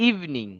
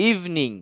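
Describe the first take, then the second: Both takes have the same delivery.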